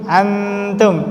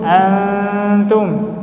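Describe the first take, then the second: First: The n is pronounced clearly with full tongue contact. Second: The n is hidden in a nasal hum. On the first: The speaker calls it wrong. "Salah, itu izhar" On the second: The speaker calls it right. "Harusnya antum"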